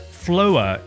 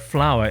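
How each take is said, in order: First: The first part sounds like 'flow'. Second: The first part sounds like 'flour'. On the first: Something that flows, like a river. "something that flows like water" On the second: A blossoming plant. "it makes us think of blossoming plants like roses"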